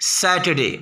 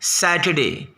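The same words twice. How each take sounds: The two takes are said the same way.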